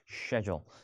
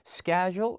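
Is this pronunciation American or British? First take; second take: British; American. First: It is said in a British way. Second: It is said in a non-British, American way. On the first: The speaker calls it right. "영국에서는 뭐예요?" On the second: The speaker calls it wrong. "에이, 그런 말 없어요"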